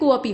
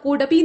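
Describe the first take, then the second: First: An a vowel is said in the middle. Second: A d sound is said in the middle. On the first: The speaker calls it right. "ये कोअपी होगा, मतलब ऐसे होगा" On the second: The speaker calls it wrong. "यहाँ कोडपी नहीं होगा"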